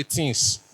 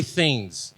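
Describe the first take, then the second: First: "things" as "tins", th turned to t; hard t in "things", ending in a crisp s; Benin pronunciation. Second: "things" with a soft th at the start; th-sound "things", standard English style; standard English pronunciation. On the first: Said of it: "we say things". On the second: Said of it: "We don't say things in Benin". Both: Shown as a demonstration.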